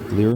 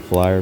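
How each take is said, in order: First: The vowel is said like 'ee', Norwegian-style. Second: The vowel is said like 'eye', English-style. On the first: "with the Norwegian pronunciation, they call it Flir" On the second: "in English you would probably say flyer"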